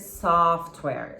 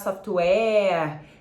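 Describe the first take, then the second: First: The o is said like the vowel in call. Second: The o is said as a Portuguese o. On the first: The speaker calls it right. "ele pronuncia como se fosse call, uh, mall, vai ser software" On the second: The speaker calls it wrong. "corre o risco de chegar na hora você falar software"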